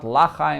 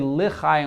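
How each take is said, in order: First: The first vowel is a full 'a'. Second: The first vowel is a short, reduced 'e'. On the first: It sounds like something negative. The speaker calls it wrong. "not Lachayim with a patach" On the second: It avoids sounding like a negative phrase. The speaker calls it right. "with a shva"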